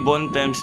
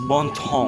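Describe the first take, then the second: First: The name is read with English spelling sounds. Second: The name is read with French sounds. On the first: The speaker calls it wrong. "na-mispronounce namin, hindi Bontemps" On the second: The speaker calls it right.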